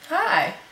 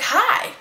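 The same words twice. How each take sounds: First: The greeting is said calmly and plainly. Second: The greeting is said with excitement.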